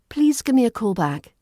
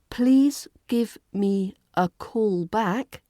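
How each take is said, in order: First: The words run together with reduced sounds. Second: Each word is said separately and fully.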